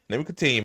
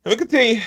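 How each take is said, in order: First: Said in the usual way. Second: Hammed-up, high and loud; mock pompous. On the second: Streamer mocking senator's bluster, loud hammed-up repeat. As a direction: puff it up like a speech.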